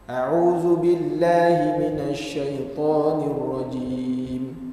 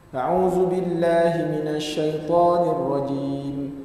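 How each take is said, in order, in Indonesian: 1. Dibaca dengan lambat dan tenang. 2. Dibaca dengan tempo sedang. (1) "bacaannya perlahan" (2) "tadwir ni cepat sikit"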